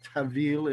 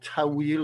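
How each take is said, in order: First: The word is said with Persian pronunciation. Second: The word is said without Persian pronunciation.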